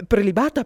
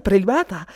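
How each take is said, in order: First: "Prelibata" much higher and louder, rising at the end; first echo lifted high and loud, ending up; third lady, first time. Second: "prelibata" higher and louder, falling to a close; second echo loud, dropping to a firm end; third lady, repeated. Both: Acted. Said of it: "ripeteva sempre due volte le parole".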